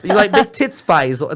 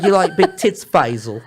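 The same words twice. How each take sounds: First: Mock Cockney, higher and louder; cockney come-on. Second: Thicker cockney. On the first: Retelling the wife's line to the host, lightly Cockney. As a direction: lean into the Cockney flirt. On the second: Retold or imitated. Retelling the wife's line, now broader Cockney. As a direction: lay the Cockney on thicker each time. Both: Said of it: "the more cockney she gets".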